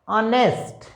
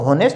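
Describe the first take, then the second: First: It begins with a vowel, no h sound. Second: It begins with an h sound. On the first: The speaker calls it right. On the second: The speaker calls it wrong.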